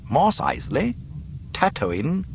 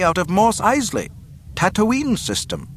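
First: High, rising questions; puzzled. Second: High, formal report, falling endings; reporting over speaker. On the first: Tarkin puzzled by the report, questioning rise. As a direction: query each name, lifting the end. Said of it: "Tarkin looked puzzled". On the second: Officer reporting the ship's origin, high formal announcement. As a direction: announce place names high and matter-of-fact. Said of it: "a voice reported over an unseen speaker". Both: A narrator's reading.

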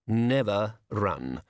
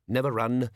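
First: Drawn out, each word weighed; said slowly for weight; slow emphatic repeat. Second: Said in the usual way. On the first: A narrator's reading. Mr Brown lecturing the gang on his motto, slow and deliberate.

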